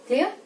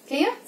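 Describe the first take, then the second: Both takes have the same delivery.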